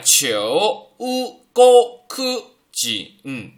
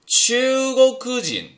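First: Read kana by kana, the first syllable sounds low. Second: Read connected, the first syllable sounds rising. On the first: "第一个假名头上没有横线，读三声" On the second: "听起来是不是像二声啊"

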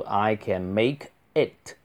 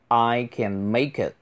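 First: The words 'make' and 'it' stay separate. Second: The words 'make it' run together smoothly. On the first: "也可以读" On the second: "直接连读"

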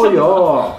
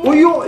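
First: It sounds exasperated, like telling someone to stop. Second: It sounds surprised, like something unexpected happened.

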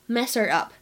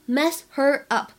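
First: Mess and her run together, dropping the h. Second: Mess and her are said as separate words. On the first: "我们可以读作是mess her up" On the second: "mess her 当中呢也可以有一个击穿爆破"

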